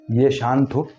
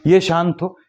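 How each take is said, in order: First: Said in the usual way. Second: ये शांत हो said again, louder and higher; emphatic repeat. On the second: Acted. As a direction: hammer the point home the second time. Repeating the wish for calm.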